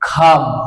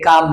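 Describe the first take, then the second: First: The first consonant is strongly aspirated. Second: The first consonant is unaspirated. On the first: The speaker calls it right. "সি খেইর মতো উচ্চারণ হবে" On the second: The speaker calls it wrong. "এখানে কাম নয়"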